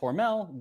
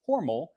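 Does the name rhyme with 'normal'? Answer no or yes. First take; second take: no; yes. First: The name is said not rhyming with normal. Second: The name is said to rhyme with normal. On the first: This is how the company says it today. "the company today says Hormel" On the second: This is the family's original pronunciation. "as in rhymes with normal"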